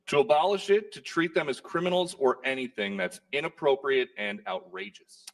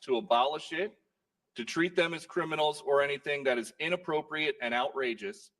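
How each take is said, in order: First: It is read through without the pause. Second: There is a pause in the middle.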